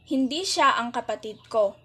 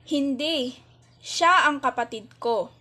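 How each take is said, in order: First: It is said without a pause after hindi. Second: It is said with a pause after hindi.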